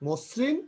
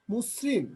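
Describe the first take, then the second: First: Said in the usual way. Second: মসৃণ with the first vowel said like ও, "mosrin"; মসৃণ spoken as "মোসৃণ"; initial অ as ও. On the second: Shown as a demonstration. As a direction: round the opening vowel of মসৃণ toward ও. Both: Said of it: "এটা ও এর মতো উচ্চারণ হচ্ছে".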